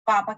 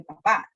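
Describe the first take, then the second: First: "papa" stressed on the first PA; stress on first syllable. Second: "papá" stressed on the final PÁ; stress on last syllable. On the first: Teacher contrasting accents, first-syllable stress on "papa". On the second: Teacher contrasting accents, final-syllable stress on "papá". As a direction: push the second syllable of "papá". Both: Shown as a demonstration. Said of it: "Destacamos algunas sílabas".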